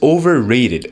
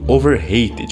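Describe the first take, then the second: First: The middle sounds like the word rated. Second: The middle sounds like the word hated. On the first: Someone is valued above their real worth. The speaker calls it right. "ou seja, superestimados" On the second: Someone is hated too much. The speaker calls it wrong. "parece que você está usando a palavra hated"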